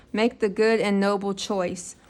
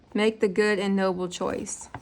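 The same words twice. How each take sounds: The two takes are said the same way.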